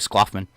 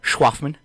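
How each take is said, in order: First: The name begins with an sk sound. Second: The name begins with an sh sound. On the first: This is how a stranger misreads the name. The speaker calls it wrong. "if you're a telemarketer, you call me Skloffman" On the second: This is how the owner says the name. The speaker calls it right. "It's like my name"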